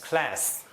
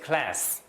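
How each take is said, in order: The two takes are said the same way.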